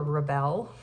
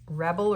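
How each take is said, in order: First: "rebel" as the verb, stress on the second syllable, re-BEL, rising. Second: "rebel" as the noun, stress on the first syllable, REB-el. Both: Shown as a demonstration. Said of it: "rebel or rebel".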